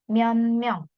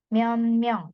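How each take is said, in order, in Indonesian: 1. Kata pertama berakhir dengan bunyi n. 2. Kata pertama berakhir dengan bunyi n.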